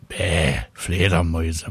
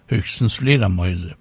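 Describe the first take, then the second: First: Low, lightly drawled cat grumble; grumpy meowing cat. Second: Said in the usual way. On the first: A narrator's reading. Cat sneering at bats, a low mewling grumble. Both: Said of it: "maunzt Willi".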